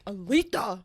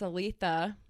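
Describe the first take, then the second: First: The name is screamed loudly with high energy. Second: The name is said at normal conversational volume.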